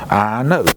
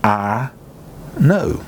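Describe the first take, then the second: First: Said in the usual way. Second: "I know." with the weight landing on "know."; stress on know. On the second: Shown as a demonstration. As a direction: lean hard on "know." with a rising lift. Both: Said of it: "two words that stand out".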